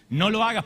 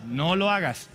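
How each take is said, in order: First: "No lo hagas" with the weight on "hagas", a bit louder; firm warning. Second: "No lo hagas" with the stress on "lo", falling; friendly warning. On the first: Preacher repeating his warning to the youth, firmer and louder. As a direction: press the warning home. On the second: Preacher advising the youth like a friend, gentle warning. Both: Shown as a demonstration. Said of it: "No como diablo, sino como compadre".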